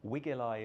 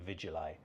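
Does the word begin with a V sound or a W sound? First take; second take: W sound; V sound. First: The word begins with a W sound. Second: The word begins with a V sound.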